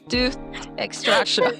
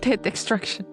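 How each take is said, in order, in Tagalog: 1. Ang unang salita ay may mahabang patinig na 'oo'. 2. Ang unang salita ay may maikling patinig na 'i'. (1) "Saka lang niya na-realize it's tooth extraction" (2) "Hindi kasi yun yung pronunciation, it was tit"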